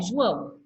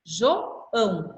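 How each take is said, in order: First: Said in the usual way. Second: João split in two, JO then ÃO; separated syllables. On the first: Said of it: "Olha o teu nome". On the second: Shown as a demonstration. Teacher showing student his own name, syllables pulled apart. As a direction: break João between O and ÃO, slowly.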